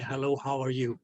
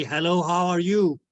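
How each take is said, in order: First: Softer echoed repeat, like a voice bouncing off a wall. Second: Said in the usual way. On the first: Shown as a demonstration. Teacher imitates the greeting returning as an echo, softer. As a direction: let it come back at you faintly. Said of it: "you hear your own voice saying". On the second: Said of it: "That's when you say".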